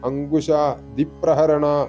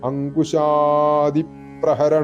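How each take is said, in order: First: The vowel after 'ankush' is short and clipped. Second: The vowel after 'ankush' is drawn out long. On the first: The speaker calls it wrong. "അങ്കുശ ദിപ്രഹരണ എന്നൊന്നും ജപിക്കരുത്" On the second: The speaker calls it right. "ആ അങ്കുശ കഴിഞ്ഞിട്ട് നീട്ടുക"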